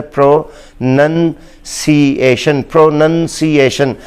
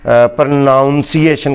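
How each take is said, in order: First: प्रोनंसिएशन slow, pro-nun-see-AY-shun, short nun; प्रोनंसिएशन said slowly syllable by syllable; प्रोनंसिएशन with nun not noun; correct pronunciation. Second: प्रोनाउंसिएशन with -nounce- in the middle; प्रोनाउंसिएशन the common mistake; प्रोनाउंसिएशन the wrong way; wrong pronunciation. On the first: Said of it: "ये लफ्ज़ है". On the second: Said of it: "कहा जाता है". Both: Shown as a demonstration.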